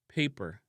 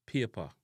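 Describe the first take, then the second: First: PAPER with "ay" and a final R, "pay-per"; English-style "pay-per"; English pronunciation. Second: PAPER as "pyeh-pa", no final R; Jamaican pronunciation. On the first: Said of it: "in a English". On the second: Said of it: "in a Jamaican". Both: Shown as a demonstration.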